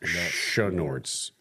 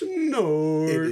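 First: The word begins with a 'sh' sound. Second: The word begins with a plain 's' sound. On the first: The speaker calls it wrong. "he throws an H in there" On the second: The speaker calls it right. "there's no H"

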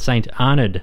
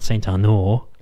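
First: The name is said with an English-style ending. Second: The name is said with a French-style ending. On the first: The speaker calls it right. "that's the Australian way of saying it" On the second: The speaker calls it wrong. "not St. Arnaud, like Chanel number 5"

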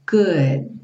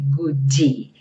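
First: The word ends on a stopped D, no vowel. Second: An extra vowel is added after the D. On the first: The speaker calls it right. "consoante oclusiva" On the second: The speaker calls it wrong. "Cuidado para não falar goodie, porque a gente não tem uma vogal depois desse D"

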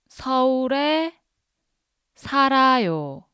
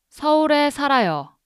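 First: It is said slowly. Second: It is said fast.

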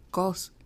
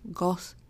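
First: The word ends with a released hissing s sound. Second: The word ends with a released hissing s sound.

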